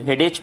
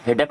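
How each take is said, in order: First: हेडेक said as "hedech", ending in a ch sound; the common mistake: हेडेक with ch at the end; wrong pronunciation. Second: हेडेक said as "hedak", ending in a k sound; the right way: हेडेक ending in k; correct pronunciation. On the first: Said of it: "वो गलत है". (हेडेक को "हेडेच" बोलना) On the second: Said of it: "हेडेक होगा". (हेडेक को "हेडक" बोलना, अंत में क) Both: Shown as a demonstration.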